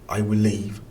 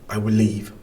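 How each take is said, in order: No difference in how they are said.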